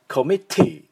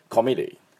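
First: The t in the middle is crisp and strong. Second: The t in the middle is weak, almost an l. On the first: "イギリスはT が強めになりますから、コミッティみたいにしっかりT を出す" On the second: "アメリカ人はそこまで出せません。…L に聞こえるぐらいT を弱めます"

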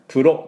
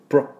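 First: A vowel separates the p and r sounds. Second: The p and r blend into one sound. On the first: The speaker calls it wrong. "プロではなくて" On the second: The speaker calls it right. "これプルのところを一音のつもりで出してください。"

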